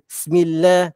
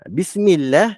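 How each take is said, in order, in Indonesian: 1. Bunyi b di awal lemah dan hilang. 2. Huruf b di awal jelas, dengan bibir tertutup. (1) "Ba tu hilang" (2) "Bibir kita tutup"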